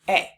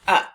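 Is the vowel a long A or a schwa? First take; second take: long A; schwa. First: The word is said with a long A vowel. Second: The word is said with a short schwa vowel.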